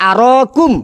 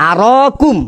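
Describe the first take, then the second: The two takes are said the same way.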